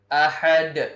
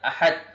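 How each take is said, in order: First: The final d is released with a bouncing echo. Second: The final d is stopped flat without echo. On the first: The speaker calls it right. "Yang benar itu adalah ahad. Harus memantul" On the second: The speaker calls it wrong. "terjadi kesalahan kalau kita mengatakan ahad"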